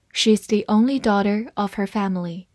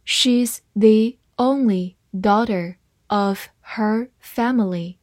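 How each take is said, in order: First: Said in the usual way. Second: Slow, one word at a time; measured teacher's read-along. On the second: Shown as a demonstration. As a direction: leave a clear gap after every word. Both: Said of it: "慢慢来读".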